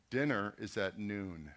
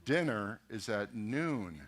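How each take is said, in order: First: Said in the usual way. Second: Slow repeat. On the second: Retold or imitated. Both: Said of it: "He goes".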